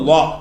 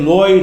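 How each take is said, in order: First: The name ends with a plain 'a' sound. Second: The name ends with an 'oy' sound. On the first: The speaker calls it right. "இந்த எழுத்துக்கு பேர் லா" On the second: The speaker calls it wrong. "லோயின்னு ஒரு எழுத்து கிடையாது"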